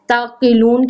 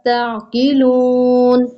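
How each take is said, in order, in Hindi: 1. आखिरी 'oo' स्वर की लंबाई सामान्य है। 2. आखिरी 'oo' स्वर को लंबा खींचा जाता है।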